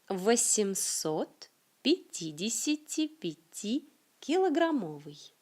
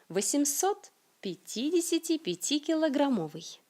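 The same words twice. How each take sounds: First: The phrase is said at a moderate speed. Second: The phrase is said quickly and fluently. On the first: "Un peu plus vite" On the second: "Et comment dirait un natif?"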